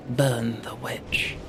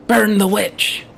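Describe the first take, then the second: First: Slow whispered mob chant. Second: Shouting like a zealot mob leader; angry mob leader. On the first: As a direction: hiss it low and slow. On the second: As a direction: rouse the crowd, loud and fierce. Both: Pretend.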